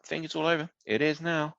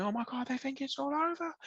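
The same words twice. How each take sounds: First: Understated, deadpan commentary delivery. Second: High-pitched, restrained mock scream. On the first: Retold or imitated. Host imitating the commentator's understated tone, deadpan. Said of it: "it's quite deadpan". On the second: Host showing what the commentator didn't do, mock screaming. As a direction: fake an excited commentator's scream without real volume. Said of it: "It's not like he's screaming".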